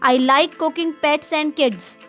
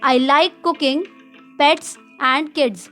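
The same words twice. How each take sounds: First: It is said without a pause after cooking. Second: There is a pause after cooking.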